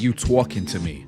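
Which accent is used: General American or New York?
New York. It is said in a strong New York accent.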